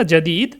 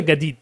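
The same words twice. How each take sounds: First: জাদিদ with an initial j; standard j pronunciation. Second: গাদিদ with hard g for j; Egyptian g pronunciation. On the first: Teacher recalling a learned word, clear j pronunciation. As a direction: say জাদিদ starting on j. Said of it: "তারা জাদিদকে উল". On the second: Teacher showing how Egyptians say it, hard g. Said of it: "মিশরীয় অ্যাকসেন্টে তারা". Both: Shown as a demonstration.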